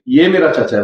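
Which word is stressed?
ये. The stress falls on the word ये. This person, not that one, is my uncle. "वो नहीं है"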